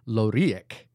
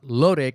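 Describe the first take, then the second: First: Every vowel in the name is pronounced. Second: One vowel in the name is dropped. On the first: The speaker calls it right. "all vowels are pronounced and have one constant pronunciation. Therefore, and this is hard to read, it's pronounced Loriek" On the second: The speaker calls it wrong. "Not Lorik, as you kept saying"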